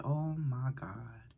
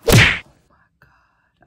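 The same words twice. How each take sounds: First: Slow, hushed whisper; scared whisper. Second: Slow breathy gasp of shock. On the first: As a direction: whisper it in dread. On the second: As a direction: gasp it, horrified. Reading schizophrenia result, shocked. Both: Real, not acted.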